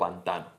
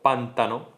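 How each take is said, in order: First: The stress is on the second syllable. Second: The stress is on the first syllable. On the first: The speaker calls it right. "en vez de" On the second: The speaker calls it wrong. "la tendencia esdrújula"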